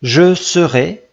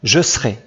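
First: The phrase is said in three syllables. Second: The phrase is said in two syllables. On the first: It sounds more formal and southern. "trois syllabes" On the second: It sounds less formal and northern. "tu peux le prononcer ou pas"

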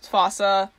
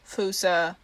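First: It is said the North American way. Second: It is said the Madagascar way. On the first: "fossa in North America" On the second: "if you're actually saying it right"

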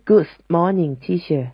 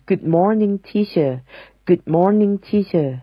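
First: An s sound is added after good. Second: Good is said without an added s sound. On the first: The speaker calls it wrong. "ไม่ใช่" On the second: The speaker calls it right. "ต้องเป็น"

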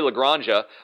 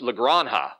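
First: The j is said like an English j. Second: The j is said like an h. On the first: The speaker calls it wrong. "I keep wanting to say La Granja" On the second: The speaker calls it right. "apparently the J is an H, so it's La Granja"

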